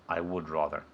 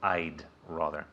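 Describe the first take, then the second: First: 'I would' is said as two full words. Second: 'I would' is shortened to one syllable 'I'd'. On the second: "which we contract to I'd rather"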